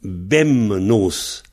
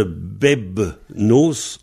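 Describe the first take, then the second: First: Bemnos with the b turned into m; nasalised form bemnos. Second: Bebnos with a clear b before the n; old form bebnos. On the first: Teacher showing the nasalised form, bemnos with m. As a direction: say bemnos, m before the n. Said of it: "au lieu de bebnos, on a eu". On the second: Teacher showing the old form, slow bebnos. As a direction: say bebnos slowly, b then n. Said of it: "au lieu de bebnos". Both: Shown as a demonstration.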